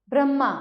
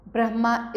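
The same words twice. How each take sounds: First: ब्रह्मा said as "bram-maa"; higher, louder ब्रह्मा with a doubled m; misspelt double m. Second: Said in the usual way. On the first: Shown as a demonstration. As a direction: lose the h in ब्रह्मा. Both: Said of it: "इस प्रकार लिखते हैं".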